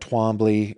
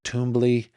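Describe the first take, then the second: First: A 'w' sound follows the first consonant. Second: No 'w' sound follows the first consonant.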